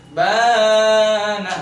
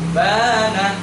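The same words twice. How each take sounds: First: The long vowel is stretched far too long. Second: The long vowel lasts one beat. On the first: The speaker calls it wrong. "ketika membaca panjang itu kepanjangan" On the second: The speaker calls it right. "satu ayunan"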